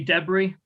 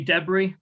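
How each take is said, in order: First: It is said in a British accent. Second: It is said in a British accent.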